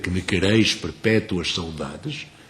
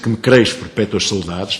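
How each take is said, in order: First: Brazilian accent, every syllable clearly pronounced. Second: Portuguese accent, some syllables swallowed. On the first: The verse keeps all ten syllables. The speaker calls it right. "O Ida brasileira, ... tem dez sílabas" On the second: The verse loses syllables and is disfigured. The speaker calls it wrong. "O Ida portuguesa, ... tem oito"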